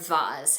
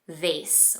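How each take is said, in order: First: It is said in a fancier, posher way. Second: It is said in the plain everyday way.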